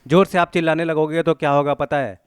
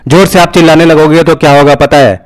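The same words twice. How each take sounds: First: High demo shout at a normal volume; a recovered shout, raised voice without the blast; shout turned down. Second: Full-force demo shout, high and overloaded; very loud shout. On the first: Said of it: "मैं चिल्लाया तो कैसा सुनाई दे रहा था". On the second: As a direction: shout hard enough to clip the mic. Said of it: "मैं बहुत ज़ोर से चिल्लाने वाला हूँ". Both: Shown as a demonstration.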